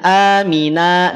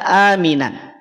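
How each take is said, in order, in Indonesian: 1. Kata ini berakhir dengan vokal a panjang. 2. Kata ini berakhir dengan bunyi n. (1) "baca a panjang dua harokat" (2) "tidak aminan"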